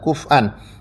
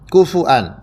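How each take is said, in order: First: No vowel after f, then a glottal stop. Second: A vowel after f, then a glottal stop. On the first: This is another alternative reading. "fa-nya disukunkan ya" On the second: This is an alternative reading. "Wawunya diganti dengan hamzah"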